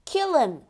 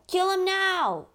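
First: Urgent call to kill; loud desperate cry. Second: Higher, more desperate shout of kill him now; panicked pleading shout; frantic cry. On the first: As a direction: urge the crew on. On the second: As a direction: scream it in panic. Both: Acted. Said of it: "Some of my men cried".

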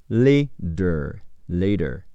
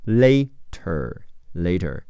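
First: "Later" with the T softened to a quick d, "lay-der"; flapped T. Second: Said in the usual way. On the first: Shown as a demonstration. Teacher showing students the listening form of "Later", T flapped to d. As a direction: say "Later" with a light d in place of the T. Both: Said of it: "听力中，T会变成的".

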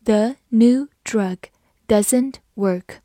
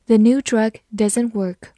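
First: Deliberate, spaced-out teacher reading; slow model reading. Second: Said in the usual way. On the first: Shown as a demonstration. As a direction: read slowly word by word. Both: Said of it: "我们慢慢来读".

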